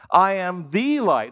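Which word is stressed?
the. The word the carries the main stress. He is the only light, with no other. "In other words, I'm the only light. I'm the exclusive light"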